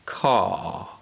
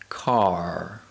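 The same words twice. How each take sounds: First: No R sound is pronounced after the vowel. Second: An R sound is pronounced after the vowel. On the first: "In British English" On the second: "in American English, the letter R always produces the R sound"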